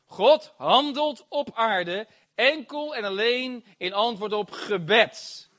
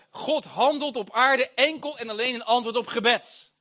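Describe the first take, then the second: First: Half-speed, each phrase set apart; slow emphatic repeat. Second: Said in the usual way. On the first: Real, not acted. Preacher repeating the key line to believers, slow and emphatic. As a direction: drive the key line home slowly.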